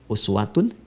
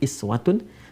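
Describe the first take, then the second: First: The word begins with a 'u' vowel. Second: The word begins with an 'i' vowel. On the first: Even in great things he is an example. "uswah harakat dhammah" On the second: Even in small, simple things he is an example. "dalam riwayat Qalun atau Warsh dari Nafi' dengan iswah"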